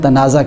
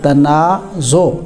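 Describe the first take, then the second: First: The word ends in an a vowel. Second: The word ends in an o vowel. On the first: The speaker calls it wrong. "ये तनाज़ा लफ्ज़ नहीं होता" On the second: The speaker calls it right. "तफ़ाउल के वज़न पर है"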